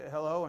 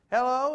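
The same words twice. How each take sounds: First: Said in the usual way. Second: High, loud caller's hello; loud, lifted phone greeting in mimicry; mother-in-law on phone. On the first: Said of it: "and I'll say". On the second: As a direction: imitate her calling hello, pitched right up. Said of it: "She'll say".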